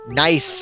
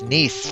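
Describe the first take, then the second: First: The vowel sounds like the one in 'nice'. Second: The vowel sounds like the one in 'niece'. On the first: The speaker calls it wrong. "I thought it was pronounced Nice France" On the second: The speaker calls it right. "people kept saying it's Nice ... is N I E C E"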